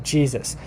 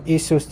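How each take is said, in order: First: The word starts with a J consonant sound. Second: The word starts with an ee vowel sound. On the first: This is the later English pronunciation. "it has a J sound" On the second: This is the older English pronunciation. "there was a time in English where Jesus was probably pronounced like Isus"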